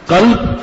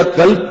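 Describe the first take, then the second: First: قلب with q from back of throat; correct qaf. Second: قلب said with a front k, as kalb; qaf as kaf. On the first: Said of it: "قاف یہاں سے ادا کیا". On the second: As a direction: say قلب with k instead of q. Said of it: "یہاں سے ادا کر دیا". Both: Shown as a demonstration.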